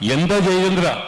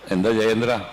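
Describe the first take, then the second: First: It is asked loudly, with projected expression. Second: It is asked softly, in a low-key way. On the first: This suits an audience far away on stage. The speaker calls it wrong. "എന്ന് ഞാൻ ചോദിക്കണ്ട" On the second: This suits a close-up camera shot. The speaker calls it right. "എനിക്ക് നിങ്ങളോട് എന്താ ജയേന്ദ്ര എന്ന് ചോദിച്ചാൽ മതി"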